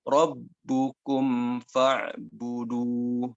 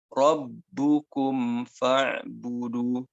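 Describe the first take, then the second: The two takes are said the same way.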